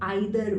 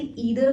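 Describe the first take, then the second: First: The first vowel sounds like 'eye'. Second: The first vowel sounds like 'ee'. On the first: "और आइदर भी pronounce कर सकते हैं" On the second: "आप इसे ईदर भी प्रोनाउंस कर सकते हैं"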